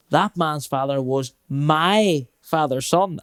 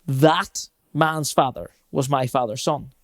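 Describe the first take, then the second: First: Slow, stress moved onto my; shifted emphasis. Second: Slow, weight on That; slow emphasis. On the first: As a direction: lean on my in That man's father was my father's son. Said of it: "Then the next time I'll go". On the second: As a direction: lean on That in That man's father was my father's son. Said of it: "So I'll go". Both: Shown as a demonstration.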